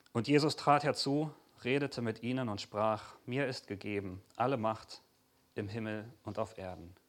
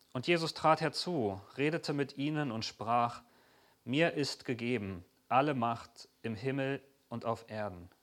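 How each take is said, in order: The two takes are said the same way.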